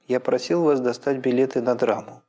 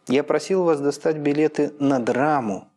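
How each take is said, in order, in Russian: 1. У последнего слова только обычное фразовое ударение. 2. Последнее слово произнесено с сильным нажимом. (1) "Здесь логическое ударение вроде как отсутствует" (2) "С нажимом еще больше по сравнению с обыкновенным фразовым ударением появилось логическое и нажало"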